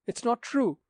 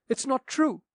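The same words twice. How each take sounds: First: High-pitched cry of denial; high protesting cry. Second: Higher protesting cry. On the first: Daughter crying out against the captain's accusation, high and pleading. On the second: Daughter repeating her denial to the captain, higher and desperate. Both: Acted.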